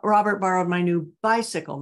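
The word 'bicycle' is stressed. It was the bicycle and not the book. "not my new book"

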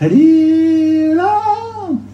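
It is said in an emotional voice.

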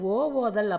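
The vowel is split with a break before the word. The speaker calls it wrong. "இது ஓ ஓதல் அப்படின்னு படிக்கக்கூடாதான்"

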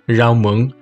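The first word begins with an R sound. This is the southern pronunciation. "with more of an R sound in southern Vietnamese"

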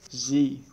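The letter is pronounced zee, rhyming with see. This is the American English form. "but for American English, they will pronounce Z"

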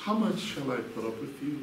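It is said in a soft, kind tone. The speaker is patient and affectionate. "you could change the tone of that and make it nicer"

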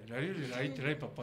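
The voice is relaxed and slightly slurred. The speaker calls it wrong. "普段の喋り方で"

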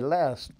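The vowel is said with an American accent. "you just soften some of the vowel sounds"

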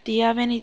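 It is said in a put-on girlish voice.

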